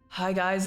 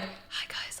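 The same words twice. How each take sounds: First: It is said in a loud, projected voice. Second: It is said in a quiet whisper. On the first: The partner talks this way. "He goes" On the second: Most people talk this way. "Normal people will whisper and they'll go like"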